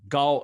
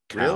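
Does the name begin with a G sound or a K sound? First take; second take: G sound; K sound. First: The name begins with a G sound. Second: The name begins with a K sound. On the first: The speaker calls it right. "the correct way to say it in Mandarin Chinese is not even a K sound. It's a G sound" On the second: The speaker calls it wrong. "instead of Cal"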